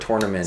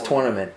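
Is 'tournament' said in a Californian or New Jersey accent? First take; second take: Californian; New Jersey. First: It is said with a Californian accent. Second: It is said with a New Jersey accent. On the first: This is how people from California say it. "it was never tournament" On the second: This is how people say it where the speaker grew up. "where I'm from, it was tournament"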